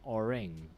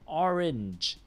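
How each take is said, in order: First: The word ends with an ng sound. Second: The word ends with an n then j sound. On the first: The speaker calls it wrong. "not a ng. Yeah, not orang" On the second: The speaker calls it right. "So n, then j"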